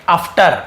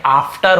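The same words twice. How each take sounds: First: After with a short uh vowel first; mistaken pronunciation. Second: After with a long open AA first; correct pronunciation. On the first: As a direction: misread after as UFF-tar. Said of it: "आपने यहाँ पे बोल देंगे". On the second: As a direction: say after as AAF-tar. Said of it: "लेकिन ये after होता है". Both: Shown as a demonstration.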